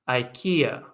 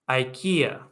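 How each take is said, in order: Both takes have the same delivery.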